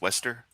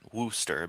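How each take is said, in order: First: The first vowel is an 'eh' sound. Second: The first vowel is an 'oo' sound. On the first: This is believed to be the actual pronunciation. The speaker calls it right. "but I think it's it's Wester" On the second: This is the instinctive reading of the spelling. The speaker calls it wrong. "I instinctively... I see Wooster and I want to see say it like that"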